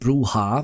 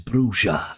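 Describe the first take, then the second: First: The word is pronounced in a Spanish-like way. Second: The word is pronounced in an English-like way. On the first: This is how many people have said it since the game came out. "which is very Spanish-like" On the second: This follows the original rulebook's pronunciation guide. "the pronunciation guide for that is Bruja"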